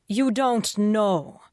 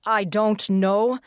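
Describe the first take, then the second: First: Slow, higher, incredulous echo; flat disbelief. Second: Slow, higher sarcastic quote of his words; mocking echo. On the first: Detective echoing McNevin's answer in disbelief. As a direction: throw his words back at him, slowly. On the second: Detective mocking McNevin's useless answer, sarcastic. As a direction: sneer his answer back at him. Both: A narrator's reading.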